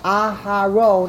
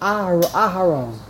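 First: The h has a full, long vowel after it. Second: The h has a very short vowel after it. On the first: The speaker calls it wrong. "I just pronounced the hay with a full patach" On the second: The speaker calls it right. "You have to say the hay very quickly"

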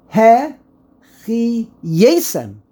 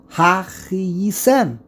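First: The first syllable has an 'e' vowel. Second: The first syllable has an 'a' vowel. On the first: It is a statement accusing the listeners. "If it would be hifil, then really, the way you would pronounce it is he-che-yesem. He, a segol" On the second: It is a question asking if it is true. "When there's a patach, ha, it's a question"

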